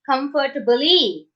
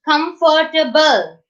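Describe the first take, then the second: First: The word ends with an added ee vowel. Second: The word ends on an l sound. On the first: The speaker calls it wrong. "We are not saying comfortably, comfortable E. We are not saying that" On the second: The speaker calls it right. "we are not pronouncing this E. We are stopping at the one letter before E, that is L"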